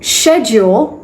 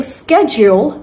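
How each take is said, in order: First: Schedule starting with sh, SHED-jool; British English schedule. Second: Schedule starting with sk, SKED-jool; American English schedule. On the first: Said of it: "that's British English". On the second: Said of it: "that's American English". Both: Shown as a demonstration.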